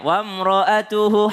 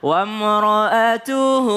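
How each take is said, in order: First: The final vowel is short. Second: The final vowel is held for two counts. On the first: "Kalau sembilan berarti dia nggak panjang" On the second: "Tapi kalau enam, dua harokat"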